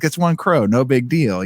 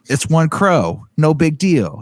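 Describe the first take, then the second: First: Put-on Boston mobster accent. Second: Put-on light Boston mobster accent, higher. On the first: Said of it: "they sound like mobsters in this". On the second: Friend imitating a Boston camper in the woods, light Boston accent. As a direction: toss it off in a lightly done Boston drawl. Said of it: "my Boston accent needs some work".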